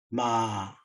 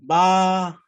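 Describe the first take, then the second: First: The pitch falls from high to low. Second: The pitch stays level in the middle. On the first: "내려옵니다" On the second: "중간음이에요"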